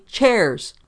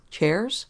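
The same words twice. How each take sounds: First: Loud, high, falling bark; angry shout. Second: Higher, rising innocent question. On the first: Policeman throwing the word back at Engel, shouting. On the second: Engel feigning ignorance to the policeman, innocently. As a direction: play innocent with a puzzled lift. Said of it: "Engel was innocent face". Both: A narrator's reading.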